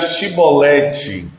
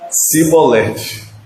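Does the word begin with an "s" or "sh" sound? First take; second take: sh; s. First: The word begins with an "sh" sound. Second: The word begins with an "s" sound. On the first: The speaker calls it right. "Diga chibolete" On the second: The speaker calls it wrong. "Eles não conseguiam falar o C H"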